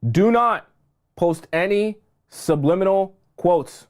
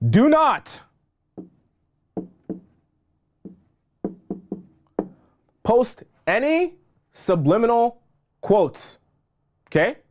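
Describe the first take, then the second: First: Slower, firm repeat of the warning; firm second take, a little calmer; repeated firmly. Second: Urgent high plea, stretching every word; emphatic warning. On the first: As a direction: say it again, steady and deliberate. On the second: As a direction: hammer the warning home, slow and raised. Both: Real, not acted. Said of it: "I'm gonna say it one more time".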